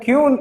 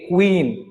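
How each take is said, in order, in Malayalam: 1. ഈ വാക്ക് ky ശബ്ദത്തിലാണ് തുടങ്ങുന്നത്. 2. ഈ വാക്ക് kw ശബ്ദത്തിലാണ് തുടങ്ങുന്നത്. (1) "ക്യൂൻ എന്ന് നിങ്ങൾ പറയരുത്" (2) "അതാണ് ശരിയായ പ്രൊനൗൺസിയേഷൻ"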